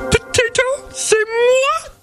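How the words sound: It is said in a Miss Piggy voice.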